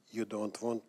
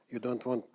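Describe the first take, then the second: No difference in how they are said.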